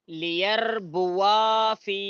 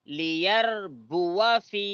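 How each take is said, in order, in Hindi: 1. fi से पहले वाला स्वर लंबा खींचा जाता है। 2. fi से पहले वाला स्वर छोटा रखा जाता है। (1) "ऐसा पढ़ना गलत है" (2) "ऐसा पढ़ना सही है"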